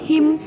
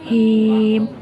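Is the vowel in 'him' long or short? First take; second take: short; long. First: The vowel is kept short. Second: The vowel is held long. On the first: The speaker calls it wrong. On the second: The speaker calls it right. "ada ya mati"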